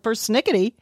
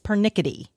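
First: There is an 's' sound before the 'n'. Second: There is no 's' sound before the 'n'. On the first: The speaker calls it wrong. "You've been living a lie with persnickety" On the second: The speaker calls it right. "there's no S. It's pernickety"

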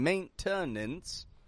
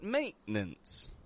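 First: The middle T is fully released. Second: The middle T is a glottal stop. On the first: The speaker calls it wrong. "I'm not saying maintenance" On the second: The speaker calls it right. "note the glottal T in the middle of that word"

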